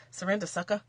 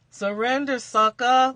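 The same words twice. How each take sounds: First: Said in the usual way. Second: Loud, punchy mock command; playful taunt. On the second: Card reader jokingly orders viewers to give up, loud taunt. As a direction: belt it out like a cheeky challenge.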